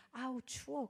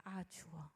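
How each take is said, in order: First: A hint of a cold, shivering woman; lightly voiced "아우, 추워." as if suddenly freezing. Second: "아, 추워." whispered, much softer and lower; whispered shiver. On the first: Possessed woman's first words. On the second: Retold or imitated. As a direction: breathe "아, 추워." out as a faint, chilled whisper. Repeats the woman's words softly.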